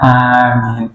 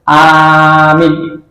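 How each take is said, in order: First: Both vowels are drawn out equally long. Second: One vowel is long, the other short. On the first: The speaker calls it right. "tapi panjang semuanya" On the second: The speaker calls it wrong. "tidak yang satu panjang satu pendek"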